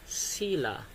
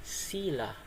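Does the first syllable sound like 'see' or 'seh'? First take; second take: see; see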